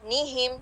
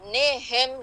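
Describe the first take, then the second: First: The first vowel is a clear, pure 'ee' sound. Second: The first vowel is an open 'e' sound. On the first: The speaker calls it right. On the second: The speaker calls it wrong.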